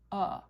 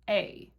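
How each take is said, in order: First: The word is said with a relaxed 'uh' vowel. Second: The word is said with a full 'ay' vowel. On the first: "we tend to just go, uh" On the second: "The first way you can say it is A, like the first letter of the alphabet"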